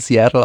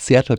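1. Der Name wird englisch ausgesprochen. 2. Der Name wird deutsch ausgesprochen. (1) "sobald man aus dem Englischen rauskommt" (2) "in Deutsch so normal"

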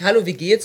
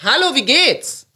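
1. Er wird in normaler Lautstärke aus nächster Nähe gesagt. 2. Er wird laut über eine Distanz gerufen. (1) "Dann sagst du nicht" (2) "das musst du ein bisschen rüberrufen"

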